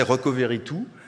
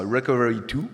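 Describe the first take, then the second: First: It is said with a French accent. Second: It is said with an American accent.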